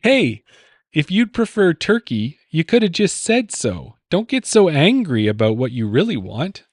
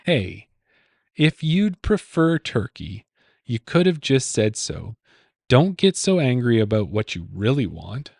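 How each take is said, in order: First: Higher, brisk read of the clue; first clue reading. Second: Repeated clue reading. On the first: Quiz host reading the clue to his co-host, pitched higher. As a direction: read the riddle out lightly raised. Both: Shown as a demonstration. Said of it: "Say, say that question again?".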